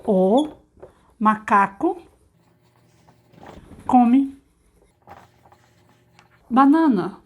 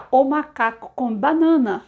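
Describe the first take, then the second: First: "O macaco come banana" said slowly, one word at a time, getting louder; slow teacher dictation of "O macaco come banana". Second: Said in the usual way. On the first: Shown as a demonstration. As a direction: space out "O macaco come banana" with pauses between the words. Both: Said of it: "olha só".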